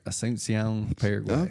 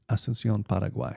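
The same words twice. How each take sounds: First: It is said with an American English accent. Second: It is said quickly with a Spanish accent.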